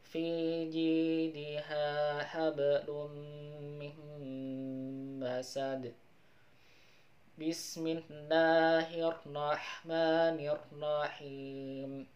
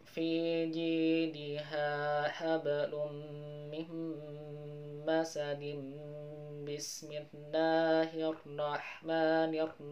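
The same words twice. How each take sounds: First: There is a pause between the two phrases. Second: The two phrases are joined without a pause.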